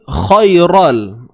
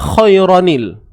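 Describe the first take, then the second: First: It is read without the linking 'n' sound. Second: It is read with a linking 'nil' sound. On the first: The speaker calls it wrong. "So dia salah lah" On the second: The speaker calls it right. "Bacaan tepatnya ialah khairanil"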